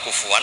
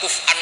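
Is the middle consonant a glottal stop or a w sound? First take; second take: w; glottal stop. First: The word has a w sound in the middle. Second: The word has a glottal stop in the middle. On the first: The hamza is softened and replaced by waw. "Qiraah kita walam yakullahu kufuwan ahad" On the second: This is the underlying form with the hamza. "Yang dimaksud Allah adalah walam yakullahu kuf'an ahad"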